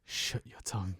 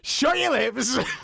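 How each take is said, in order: First: It sounds soft and seductive. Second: It sounds angry and forceful.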